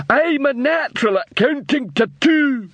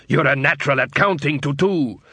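First: High, slow troll repeating proudly. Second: Said in the usual way. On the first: A narrator's reading.

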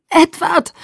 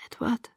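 First: Desperate high scream of his name. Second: Barely audible, fading out of consciousness; just breathe his name, almost no sound; faint murmur. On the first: Injured girl screaming for Edward, loud desperate cry. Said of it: "schrie ich". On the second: Drifting off, calling faintly for Edward, very soft. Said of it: "ohne zu wissen, ob wirklich ein Laut". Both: A narrator's reading.

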